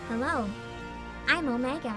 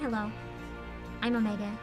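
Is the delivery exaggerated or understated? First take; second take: exaggerated; understated. First: The line is delivered in a big, exaggerated way. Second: The line is delivered in a flat, understated way.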